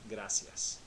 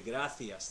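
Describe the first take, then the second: First: The c is said like an s sound. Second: The c is said like a th sound. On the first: "in Latin America, they pronounce the C like an S" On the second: "They pronounce the C like a T H"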